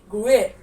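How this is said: It is said in an American English accent. "In American accent"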